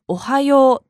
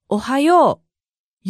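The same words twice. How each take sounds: First: おはよう in standard Japanese, smooth and even with no marked accent; おはよう on a smooth, flat standard melody; standard flat intonation. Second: おはよう in Kansai intonation, with the accent on よ; おはよう with a melodic peak on よ. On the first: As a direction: say おはよう gently level, the standard Tokyo way. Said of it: "なだらかで平坦な調子". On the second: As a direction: stress the よ of おはよう, Kansai style. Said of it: "よにアクセントとなり". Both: Shown as a demonstration.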